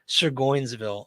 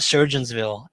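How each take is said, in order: First: The first part sounds like surgoins, with oi. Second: The first part sounds like the word surgeons. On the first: The speaker calls it right. "I believe that's how it's pronounced" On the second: The speaker calls it wrong. "I call it Surgeonsville, ... it's not pronounced that way"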